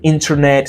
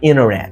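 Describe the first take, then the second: First: The T after N is pronounced. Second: The T after N is dropped. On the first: "It's not" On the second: "if you want to sound more native"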